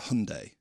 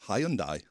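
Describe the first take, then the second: First: It is said the American way. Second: It is said the British way.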